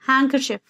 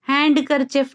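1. d की ध्वनि पूरी तरह छोड़ दी जाती है। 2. बीच में d की ध्वनि बोली जाती है। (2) "हैंडकरचिफ नहीं होता है"

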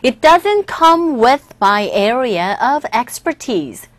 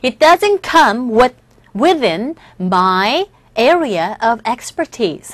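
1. 이 문장은 보통 속도로 말해집니다. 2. 이 문장은 천천히 말해집니다.

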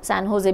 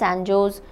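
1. दूसरा शब्द H ध्वनि से शुरू होता है। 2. दूसरा शब्द J ध्वनि से शुरू होता है।

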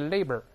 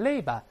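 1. 这个词用美式口音发音。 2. 这个词用英式口音发音。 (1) "美国就labor" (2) "英式读发音变成labor"

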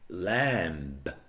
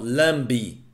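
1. A palavra termina limpa, na consoante final. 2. Uma vogal extra é acrescentada depois da consoante final.

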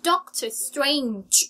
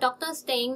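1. Strange ลงท้ายด้วยเสียง 'j' แบบเสียดสี 2. Strange ลงท้ายโดยไม่มีเสียง 'j' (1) "มีเสียงจ๊มาด้วยนะคะ" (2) "ถ้าเราพูดปกติเป็นเวอร์ชั่นไทยเราอาจจะพูดว่า"

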